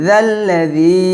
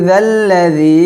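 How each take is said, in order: No difference in how they are said.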